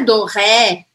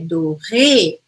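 First: The final vowel is a neutral 'uh' sound. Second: The final vowel is a clear 'ay' sound. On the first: The speaker calls it wrong. "eu não vou falar E, então não é do ré" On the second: The speaker calls it right. "é do ré"

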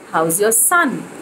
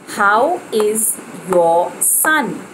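First: The word is is contracted onto how. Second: The word is is said in full. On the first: The speaker calls it right. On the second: The speaker calls it wrong.

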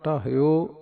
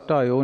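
First: An h with a short i is heard. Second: No h sound is heard in the middle. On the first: The speaker calls it right. "ਹਾਹੇ ਦੀ ਸਿਹਾਰੀ" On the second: The speaker calls it wrong. "ਢਾਇਓ ਨਹੀਂ ਕਹਿਣਾ"

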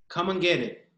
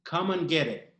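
No difference in how they are said.

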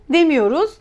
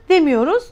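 No difference in how they are said.

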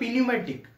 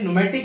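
First: The word begins with an audible p sound. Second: The word begins directly with an n sound. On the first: The speaker calls it wrong. "कोई समझदार व्यक्ति पढ़ेगा तो पढ़ेगा पी न्यूमेटिक" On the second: The speaker calls it right. "ये silent है, चलो अब जैसा भी है न्यूमेटिक इसको पढ़ेंगे"

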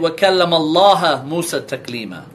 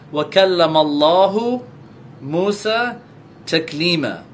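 First: The word Allah ends with an 'a' vowel. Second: The word Allah ends with a 'u' vowel. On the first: Moses is the one who spoke to God. The speaker calls it wrong. "they change it to a Fatha" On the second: God is the one who spoke to Moses. The speaker calls it right. "they change the Dhamma"

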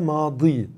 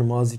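First: The middle consonant is an emphatic d sound. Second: The middle consonant is a plain z sound. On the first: This is the original Arabic form. "dat ile telaffuz ediliyor" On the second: This is the form used in Turkish. "Türkçe'ye z şeklinde bu e, geçmiş"

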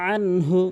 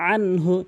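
The two takes are said the same way.

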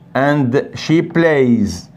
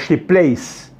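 First: The word 'plays' ends with a z sound. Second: The word 'plays' ends with an s sound. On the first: The speaker calls it right. "we pronounce it, we spell it Z" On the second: The speaker calls it wrong. "We don't say he plays or she plays"

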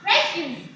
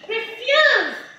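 First: It has the pronunciation of the noun form. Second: It has the pronunciation of the verb form. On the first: It means waste or garbage. "the pronunciation may differ a little... And the refuse here is what? Waste" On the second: It means to reject. "Refuse, but different pronunciation. Say after me, refuse. That's what? Reject"

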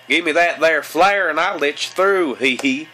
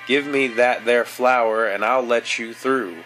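First: It is said in a put-on hillbilly Southern accent. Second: It is read in the speaker's ordinary accent.

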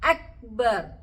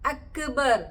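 First: The k is held still without a bounce. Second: The k is released with a bouncing echo. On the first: The speaker calls it right. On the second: The speaker calls it wrong.

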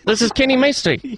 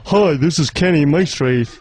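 First: It is said in an Indian accent. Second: It is said in a radio-presenter accent.

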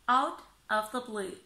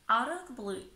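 First: The words are said separately without linking. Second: The words are blended together in connected speech.

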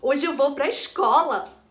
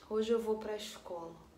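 First: It is said in a happy, joyful tone. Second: It is said in a sad, downcast tone. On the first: The speaker is glad to go to school. "uma certa intenção de alegria" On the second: The speaker is unhappy to go to school. "Ou de tristeza"

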